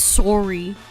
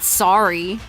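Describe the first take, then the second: First: It is said with a Canadian accent. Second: It is said with an American accent. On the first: The speaker calls it right. "the way uh, Canadians say it" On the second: The speaker calls it wrong. "It's not sorry"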